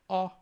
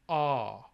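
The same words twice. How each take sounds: First: The vowel is held briefly. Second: The vowel is held about twice as long. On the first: "a short ah" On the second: "a long ah"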